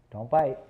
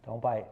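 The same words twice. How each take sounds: First: "Don't bite" said loudly and firmly; sharp loud command. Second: Said in the usual way. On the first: Real, not acted. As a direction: snap it out to stop the puppy biting. Telling the puppy off.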